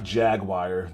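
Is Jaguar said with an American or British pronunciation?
American. Jaguar is said the American way.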